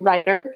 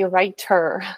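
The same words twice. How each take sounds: First: The T is soft, sounding close to a D. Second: The T is hard and clearly pronounced. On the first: The speaker calls it wrong. "I don't say, hey, every writer" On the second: The speaker calls it right. "I say writer now with a hard T"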